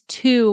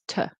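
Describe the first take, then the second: First: The word has a full vowel. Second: The word has a reduced vowel. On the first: The word stands alone. "I know it's to when it's alone" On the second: The word is in connected speech. "but in connected speech, it's to"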